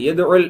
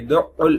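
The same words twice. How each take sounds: First: The consonant is single without extra pressure. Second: The consonant is doubled with extra pressure. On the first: He invites the orphans to a feast. The speaker calls it wrong. "அழுத்தம் கொடுக்காம" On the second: He drives the orphans away. The speaker calls it right. "ஷத்தோட"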